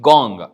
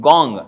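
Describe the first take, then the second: Both takes have the same delivery.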